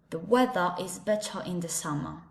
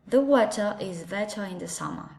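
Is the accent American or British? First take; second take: British; British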